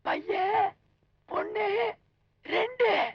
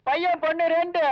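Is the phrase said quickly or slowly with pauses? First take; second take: slowly; quickly. First: It is said slowly with pauses between words. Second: It is said quickly without pauses between words.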